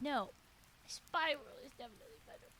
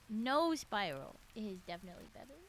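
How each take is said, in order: First: There is a pause after no. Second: It runs on with no pause after no.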